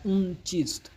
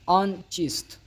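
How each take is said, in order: First: The first word has an 'oo' vowel. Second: The first word has an 'aa' vowel.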